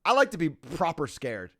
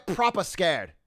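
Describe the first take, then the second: First: Said in the usual way. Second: Proper scared in a put-on British accent. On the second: Shown as a demonstration. Streamer repeats the phrase in a light British accent. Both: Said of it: "That was a good accent".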